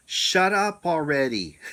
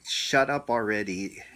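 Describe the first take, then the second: First: Booming command from above, loud and high. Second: Said in the usual way. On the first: Retold or imitated. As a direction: boom it out like a voice from the sky. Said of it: "and real loud". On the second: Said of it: "she goes".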